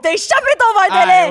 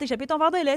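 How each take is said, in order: First: It is said in a loud, scolding tone. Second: It is said in a soft, reassuring tone. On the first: The child is being scolded for the spill. "Mais moi, c'était comme, hey" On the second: The spill is no big deal. "Aujourd'hui, c'est comme, ah, oh, tu sais, mon grand"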